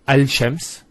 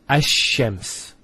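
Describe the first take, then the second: First: The L is pronounced clearly before the sh. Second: The L merges into a doubled sh sound. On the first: The speaker calls it wrong. "not al-shams ... it's not smooth" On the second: The speaker calls it right. "So it's ash-shams, ... which flows and is nicer to hear"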